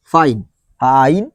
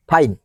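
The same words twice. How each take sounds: First: ଫାଇନ୍ drawn out slowly and low, the ଆଇ vowel stretched; slow sounded-out fine. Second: Said in the usual way. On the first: Shown as a demonstration. Teacher to students, sounding out ଫାଇନ୍ slowly and low. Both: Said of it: "ଆଇର sir sound ବାହାରୁଛି".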